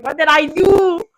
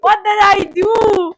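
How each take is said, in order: First: Slow, puzzled question; confused. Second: Slower, higher and louder puzzled repeat; more baffled. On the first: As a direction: ask it baffled, slowly. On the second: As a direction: press the question harder, slowly. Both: Retold or imitated. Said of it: "I'm just there confused".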